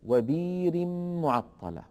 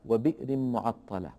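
First: The first word has a long i vowel, no glottal stop. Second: The first word has a glottal stop after its vowel. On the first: This is the reading of Warsh. "فإن ورشا يبدل أيضا هذه الهمزة فيقول وبير معطلة" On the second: This is not the reading of Warsh. "في قوله تعالى وبئر معطلة"

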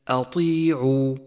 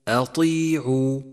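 The two takes are said the same way.

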